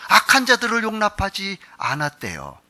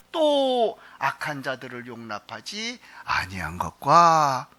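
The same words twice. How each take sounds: First: 악한 punched louder, falling at the end; stress on 악한. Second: Slow scripture reading. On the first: Pastor retells the verse to the congregation, pressing on 악한. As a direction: lean hard on 악한, then drop. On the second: Pastor reads the verse to the congregation, slow and deliberate. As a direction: read the verse out slowly and evenly. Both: Shown as a demonstration.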